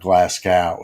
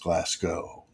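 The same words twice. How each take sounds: First: The ending does not sound like Moscow. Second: The ending sounds like Moscow. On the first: The speaker calls it wrong. "it's not Glasgow" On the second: The speaker calls it right. "it's Glasgow, like Moscow"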